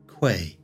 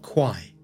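First: The name is said the local way. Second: The name is said the common way. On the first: This is how the name is said locally. The speaker calls it right. "notice how [name] pronounces the name of the river" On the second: This is the popular but mistaken way to say it. The speaker calls it wrong.

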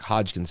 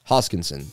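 First: The name is said like Hodgkins. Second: The name is said like Hoskinson. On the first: The speaker calls it wrong. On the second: The speaker calls it right.

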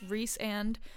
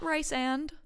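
First: The first syllable sounds like 'reese'. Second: The first syllable sounds like 'rice'. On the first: The speaker calls it right. "like Reese's Pieces and Rhysand" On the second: The speaker calls it wrong. "not Rice and"

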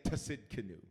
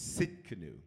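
First: The word begins with a pronounced T sound. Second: The word begins with an S sound, no T. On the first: The speaker calls it wrong. "Don't say Tasidkenu" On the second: The speaker calls it right. "The T is silent"

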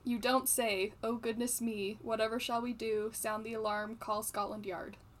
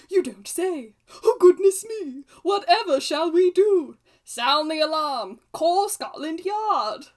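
First: It is read flatly, without intonation. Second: It is read with lively, expressive intonation.

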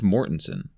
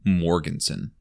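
First: The name is said without a G sound. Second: The name is said with a G sound. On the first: This is what the speaker believes is correct. The speaker calls it right. "But I think it's Mortensen" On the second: This is how the parents said it. The speaker calls it wrong. "Like with the G"

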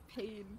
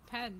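First: The vowel sounds like the English word pain. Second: The vowel sounds like the English word pan. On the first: The speaker calls it wrong. "You know it's not pain" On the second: The speaker calls it right. "Pan, dude"

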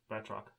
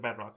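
First: The T sound is clearly pronounced. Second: The T sound is dropped. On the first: The speaker calls it right. "There's a T in there" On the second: The speaker calls it wrong. "you said Bat-Rock"

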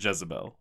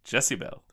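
First: The name sounds like the usual Jezebel. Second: The name sounds like Jessie Bell. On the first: The speaker calls it wrong. "they do not pronounce it Jezebel" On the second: The speaker calls it right. "They pronounce it Jezebel multiple times"

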